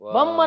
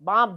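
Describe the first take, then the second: First: The vowel is cut short. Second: The vowel is drawn out long. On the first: The speaker calls it wrong. "ಬಮ್ ಅಂದ್ರ ನೀವು ಬೆಳಸಕ್ ಆಗುದಿಲ್ಲ" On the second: The speaker calls it right. "ದೀರ್ಘವಾಗಿ ಅನ್ನೋದು"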